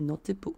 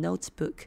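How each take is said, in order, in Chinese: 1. 它的发音带有韩语的音。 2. 它的发音像标准英语。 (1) "所以notebook" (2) "我们不能很标准的念notebook，因为这样是英文嘛"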